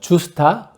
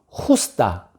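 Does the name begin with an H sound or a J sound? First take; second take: J sound; H sound. First: The name begins with a J sound. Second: The name begins with a breathy H sound. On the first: "그냥 뭐 주스타 루피나라고 발음하겠습니다" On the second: "스페인어식으로 발음하면은"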